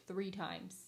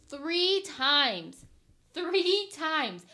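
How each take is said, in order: First: Said in the usual way. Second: Exasperated, louder each word lands; frustrated fiancée venting about moving the date, loud; emphatic loud repeat. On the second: Real, not acted. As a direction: hammer the count out loud and falling.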